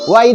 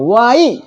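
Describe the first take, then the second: First: The final vowel is short and light. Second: The final vowel is long and forceful. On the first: The speaker calls it wrong. "वाई नहीं बोलेंगे" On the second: The speaker calls it right. "दीर्घई करके उच्चारण करना है ना"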